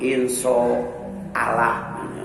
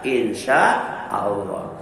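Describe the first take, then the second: First: The second syllable sounds like 'so'. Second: The second syllable sounds like 'sya'. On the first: The speaker calls it wrong. "pakai so kan" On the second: The speaker calls it right. "Harusnya pakai sya"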